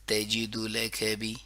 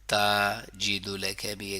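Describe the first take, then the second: First: The first vowel is short, all vowels equal. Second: The first vowel is drawn out long. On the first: The speaker calls it right. "यहाँ तक सबकी आवाज बिल्कुल एक होना चाहिए" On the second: The speaker calls it wrong. "ता को लंबा किया, जो कि नहीं करना चाहिए, बिग मिस्टेक"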